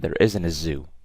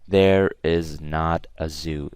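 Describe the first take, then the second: First: The words are linked quickly into a contraction. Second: The words are said fully and separately. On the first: The speaker calls it right. "I just go quick" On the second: The speaker calls it wrong. "I don't say"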